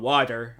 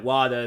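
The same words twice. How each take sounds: First: Water with a sounded final r, 'waw-ter'; standard pronunciation with r. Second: Water as 'wah-duh', no final r; r-less childhood pronunciation. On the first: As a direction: finish water on a clear r. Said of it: "'cause I couldn't say, um, water". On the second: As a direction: drop the r in water. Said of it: "I was saying, like, water". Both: Shown as a demonstration.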